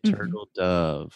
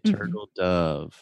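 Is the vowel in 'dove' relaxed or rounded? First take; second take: relaxed; relaxed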